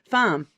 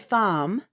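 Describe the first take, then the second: First: The vowel is short with no R colouring. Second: The vowel is drawn out and lengthened.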